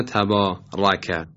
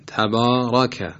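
First: Slow تبارک, thick r but thin fronted fatha after it; in تبارک let the vowel after the heavy r go light. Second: Slow تبارک with a thick ra; heavy ra. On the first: Tajweed teacher showing a mistake, light fatha after ra in تبارک. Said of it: "صرف تفخیم حرف کافی نیست". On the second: Tajweed teacher giving the correct take, heavy ra in تبارک. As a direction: make the r and fatha of تبارک full and dark. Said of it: "حرف را باید درشت تلفظ بشه". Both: Shown as a demonstration.

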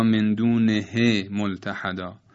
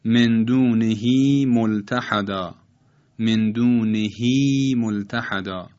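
First: دونه ending in a short e, unstretched; short vowel mistake. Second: Slow recital, دونهی with a long held ī; full long vowel. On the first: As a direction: say دونه with a brief he, no long ī. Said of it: "غلط است که تلفظ کنیم". («دونه» با کسرهٔ کوتاه، بدون کشش) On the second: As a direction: draw out the end of دونهی as a full ī. («دونهی» با ایِ کشیده و پر، شمرده) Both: Shown as a demonstration.

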